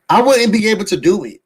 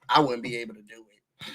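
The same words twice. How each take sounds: First: Fast, louder, wouldn't stressed; emphatic repeat. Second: Low, soft, laughing aside. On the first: Insisting to viewers she couldn't walk those halls, emphatic. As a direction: hit wouldn't hard and quick. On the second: Laughing at the hallway light, softly amused. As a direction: chuckle it under the breath, much softer. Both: Real, not acted.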